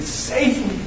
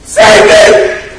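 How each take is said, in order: First: High but soft mock cry; retold scream. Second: Full-force retold scream for rescue; sudden explosive shout, pitched high; desperate scream. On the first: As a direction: voice a held-back plea for rescue. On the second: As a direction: scream it like a drowning man. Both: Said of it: "He screamed".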